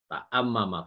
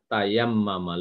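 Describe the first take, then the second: First: A glottal stop comes after the first syllable. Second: A y sound comes after the first syllable. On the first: This form is hard to pronounce. "ta'ammama berat katanya, sakil" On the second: This form is easier to pronounce. "dirubah tayammama lebih lebih mudah"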